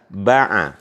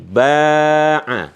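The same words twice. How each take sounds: First: Both vowels are short. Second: Only the first vowel is long. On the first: "tidak ada alifnya dua-duanya" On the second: "ketika ba-nya dikasih alif"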